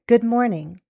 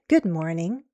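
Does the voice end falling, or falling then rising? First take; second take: falling; fall-rise. First: The pitch falls at the end. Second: The pitch falls and then rises. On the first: "More formal English uses falling intonation" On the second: "Or possibly a fall rise pattern"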